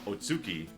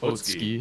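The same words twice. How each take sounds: First: The u vowel is fully pronounced. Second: The u vowel is cut off. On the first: The speaker calls it wrong. "I kept calling him Otsuki" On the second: The speaker calls it right. "no, it's Otsuki"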